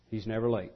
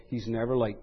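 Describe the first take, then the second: First: "never" leaned on, low and soft; stress on never. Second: Said low and soft, with calm certainty; quiet, settled. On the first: Preacher repeating the promise, leaning on "never". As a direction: press the word "never" gently. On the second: Preacher assuring his flock, softly certain. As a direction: let it land softly. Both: Shown as a demonstration. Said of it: "suffice it to say".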